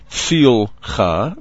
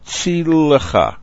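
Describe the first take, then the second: First: The L and CH join with no vowel. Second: A short vowel comes between L and CH. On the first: The speaker calls it wrong. "not tzilcha" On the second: The speaker calls it right. "but tzilecha"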